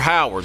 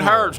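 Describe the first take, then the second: First: The name is said in its fuller form. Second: The name is said in a short clipped form. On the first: This is the new, more careful way of saying it. "You're Howards. I'm working on my pronunciation" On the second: This is the old local way of saying it. "You ain't Herds no more"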